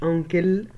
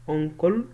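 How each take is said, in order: First: أنكل with a light "kil" ending; wrong pronunciation. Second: أنكل with a rounded "kol" ending, tune rising; correct pronunciation. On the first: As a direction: say أنكل as "ankil", the mistaken way. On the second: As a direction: say أنكل as "onkol", dark final syllable. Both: Shown as a demonstration. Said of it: "مش أنكل".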